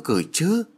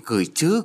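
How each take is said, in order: First: Put-on higher, more eager exclaim in an old woman's voice; exclaiming eagerly. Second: Eager exclaim, a bit higher; a glad yes, rising; exclaiming eagerly. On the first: Mother eagerly repeats she will send something, excited exclaim. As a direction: repeat it brighter and higher, overjoyed. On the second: Mother eagerly agrees to send a gift, exclaiming. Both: A narrator's reading. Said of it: "Bà ta reo lên".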